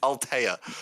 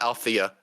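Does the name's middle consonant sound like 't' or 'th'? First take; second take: t; th. First: The middle consonant is a plain t sound. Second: The middle consonant is a th sound. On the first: The speaker calls it right. "It's Altea" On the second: The speaker calls it wrong. "everyone mispronounces her name. It's not Althea"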